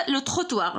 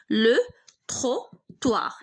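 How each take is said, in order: First: Said in the usual way. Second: Slow لو تروتوار with gaps between syllables; halting pace, as if writing each syllable; broken-up dictation. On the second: Shown as a demonstration. Dictates the word while writing.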